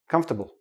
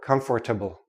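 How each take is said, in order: First: The middle 'or' syllable is dropped. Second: The middle 'or' syllable is fully pronounced. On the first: The speaker calls it right. "We say comfortable" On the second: The speaker calls it wrong. "No, don't do that"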